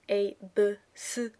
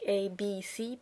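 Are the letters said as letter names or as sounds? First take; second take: sounds; letter names. First: Each letter is said as its sound. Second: Each letter is said as its name. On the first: "the way they are actually used in words" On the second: "not like A, B, C"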